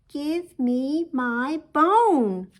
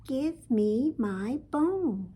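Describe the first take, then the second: First: It is said louder still. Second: It is said a little louder.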